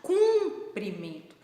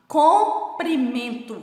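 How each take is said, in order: First: Cumprimento said slowly with a clear cum sound; slow teacher demo, Cumprimento with U; model word with U. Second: Comprimento said slowly with a clear open com sound; slow teacher demo, Comprimento with O; model word with O. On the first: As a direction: stretch Cumprimento, stressing cum with U. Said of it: "Falem a de baixo". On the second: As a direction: stretch Comprimento, stressing com. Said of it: "Falem essa de cima". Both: Shown as a demonstration.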